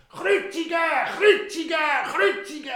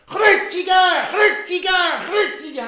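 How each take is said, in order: First: High, loud furious chant; crowd shouting. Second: High, loud chanted demand; crowd shouting. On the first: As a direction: drown out the governor's plea. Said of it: "alle Leute haben nur noch gerufen". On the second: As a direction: chant for the execution. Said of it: "haben sie gerufen". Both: Acted.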